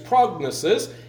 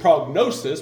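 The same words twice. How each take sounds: First: The word is said with Greek pronunciation. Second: The word is said with English pronunciation. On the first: "but Greek is prognosis" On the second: "We would pronounce it prognosis"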